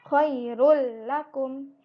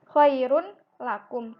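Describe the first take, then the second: First: The N merges into a doubled L sound. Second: The N sound is kept before the L. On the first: "menjadi ada tasydidnya lamnya" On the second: "sebenarnya dia kan khairun lakum"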